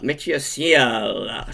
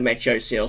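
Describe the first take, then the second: First: The name is said with a French pronunciation. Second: The name is said with an English pronunciation. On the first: "should be the pronunciation" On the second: "But I'm going to stick to"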